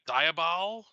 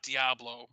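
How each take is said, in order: First: The name ends with a 'bol' sound. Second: The name ends with a 'blo' sound. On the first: The speaker calls it right. "but it's Diabol" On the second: The speaker calls it wrong. "it's not Diablo"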